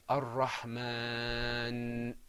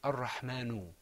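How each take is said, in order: First: The word ends on the n sound. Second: The word ends with a short u vowel. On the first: The speaker calls it right. "We say Ar-Rahman" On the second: The speaker calls it wrong. "we don't say Ar-Rahmanu"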